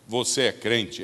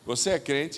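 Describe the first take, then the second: First: It sounds like an affirming, confident statement. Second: It sounds like a judgmental, doubting question.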